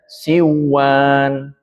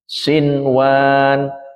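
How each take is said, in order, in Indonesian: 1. Bunyi n dihilangkan dan menyatu. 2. Bunyi n diucapkan dengan jelas. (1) "Bukan dibaca siwan" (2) "Maka nunnya dibaca jelas di sini"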